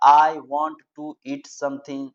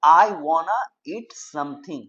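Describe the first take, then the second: First: Said in the usual way. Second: Slow "I wanna eat something", wanna run together; wanna for want to. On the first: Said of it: "इस तरह से नहीं बोल करके". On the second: Shown as a demonstration. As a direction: say "wanna" as one word, slowly. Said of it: "आप ऐसे बोल सकते हो कि". ("wanna" धीरे और जोड़कर बोलें)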